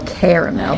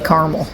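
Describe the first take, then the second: First: It is said in the standard pronunciation. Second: It is said in the local Indiana pronunciation. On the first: "I think it's supposed to be caramel" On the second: "in Indiana we say caramel"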